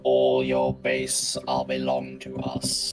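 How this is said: It is said in a generic robot voice. The speaker calls it right. "your robot voice"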